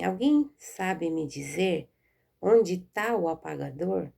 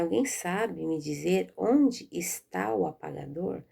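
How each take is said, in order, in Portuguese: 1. O verbo é abreviado para 'tá'. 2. O verbo é dito por extenso como 'está'. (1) "escrita na linguagem informal" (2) "Eu teria que falar assim"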